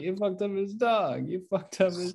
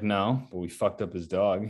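First: Much higher, disbelieving repeat; can't believe what he just heard, pitch shooting up; incredulous outburst. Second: Said in the usual way. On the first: Retold or imitated. Leguizamo's character appalled at kid.

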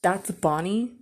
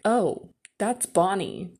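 First: "Bonnie" rising into a stunned question; disbelieving question. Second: Drawn-out "Oh", then "Bonnie" as a statement; mom's matter-of-fact reveal. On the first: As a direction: echo it in disbelief, lifting the end of "Bonnie". Jaw dropped, repeats it in disbelief. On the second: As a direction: slowly state "that's Bonnie" as simple recognition. Mom casually identifies the girl. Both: Retold or imitated.

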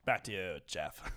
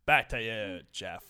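First: Low, slow news anchor sign-off. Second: Deep news anchor sign-off. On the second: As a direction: hand it back like a TV anchor. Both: Acted. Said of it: "my anchor voice".

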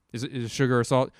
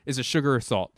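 First: Faster, flustered double-check on salt; frantic repeat. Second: Said in the usual way. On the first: Retold or imitated. Panicking at his partner over the sugar and salt, rushed and flustered.

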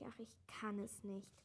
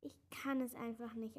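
First: Softer, lower, giving up; despairing sigh. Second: Whispered, breathless lament; despairing wail. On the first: Klecks gives up on his song, a sinking, defeated sigh. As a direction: let it sink into defeat. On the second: Klecks despairs over rewriting the song, whispered lament. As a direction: sigh it out in despair. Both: A narrator's reading. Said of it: "Verzweifelt jammerte er".

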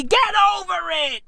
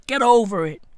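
First: High-pitched comic exasperation; exasperated cry. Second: Said in the usual way. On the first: Acted. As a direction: push it way up high, fed up. Yelled punchline of the rant.

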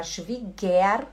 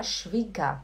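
First: Schwieger with a full "er" at the end; spelled-out E-R ending. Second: Schwieger ending in an open "ah", no R. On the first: Teacher shows students what to avoid, Schwieger ending in a sounded "er". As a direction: pronounce the written E and R in Schwieger. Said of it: "em vez de você falar Schwieger". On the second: Teacher shows students the German ending, Schwieger said with a final "ah". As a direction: say Schwieger as "shvee-gah". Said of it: "como se tivesse um A no lugar do E e do R". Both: Shown as a demonstration.

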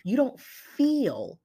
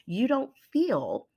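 First: "don't" leaned on, said slowly and higher; stress on don't. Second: "feel" drawn out and stressed, said slowly. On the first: Coach pressing listeners on doubt, stressing "don't". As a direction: drag out "you don't feel" with the weight on "don't". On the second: Coach emphasizing feeling to high achievers, stressing "feel". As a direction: lean slowly into the word "feel". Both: Shown as a demonstration. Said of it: "I'm gonna emphasize the word feel".

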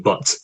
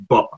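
First: Said in the usual way. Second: "but" ending in a glottal stop, no T; Scottish dropped T. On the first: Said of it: "instead of". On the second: Shown as a demonstration. Coach showing his own Scottish accent, T dropped. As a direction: say "but" with the final T swallowed. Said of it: "we don't pronounce our T's".

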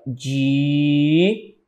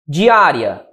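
First: "Di-a-ri-a" in four parts, long held di, pauses between; syllable separation. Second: Said in the usual way. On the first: Shown as a demonstration. Teacher showing the division of diária, syllable by syllable. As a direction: chop "Di-a-ri-a" into slow, separate syllables. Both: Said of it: "a separação é essa".

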